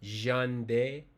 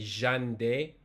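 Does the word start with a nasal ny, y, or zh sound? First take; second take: zh; zh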